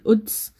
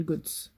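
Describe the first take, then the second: First: The word starts with a glottal stop. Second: The word starts with a hard g sound.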